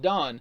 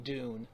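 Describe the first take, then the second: First: The vowel sounds like the one in sun. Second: The vowel sounds like the one in moon. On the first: This is the modern pronunciation. "a couplet that doesn't rhyme" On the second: This is how it was probably said long ago. "this was probably moon and dune at one point"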